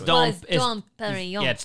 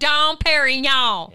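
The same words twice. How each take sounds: First: The G in Perignon is silent, French style. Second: The G in Perignon is pronounced hard. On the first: The name is said the proper French way. The speaker calls it right. "It's Dom Perignon" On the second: The speaker is unpretentious and country. The speaker calls it wrong. "you like how I say it because I'm a country gal"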